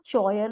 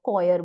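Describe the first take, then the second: First: The word begins with a ch sound. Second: The word begins with a k sound. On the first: The speaker calls it wrong. "हम इसको चॉयर नहीं बोलेंगे" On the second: The speaker calls it right. "हम इसको कॉयर बोलेंगे"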